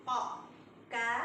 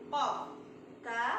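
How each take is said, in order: Both takes have the same delivery.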